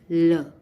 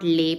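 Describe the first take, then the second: First: The vowel sounds like 'uh'. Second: The vowel sounds like 'ay'. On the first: The speaker calls it right. "It is le in French" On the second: The speaker calls it wrong. "L E is not lay"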